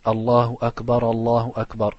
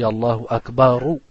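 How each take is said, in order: First: Akbar ending on a cut-off a, no final u; wrong ending. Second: Akbaru with a clear final u; Akbaru ending. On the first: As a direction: clip the end of Akbar to a bare a. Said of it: "Et ça c'est faux". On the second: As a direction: close Akbaru on a clear, loud u. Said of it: "ça finit par ou". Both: Shown as a demonstration.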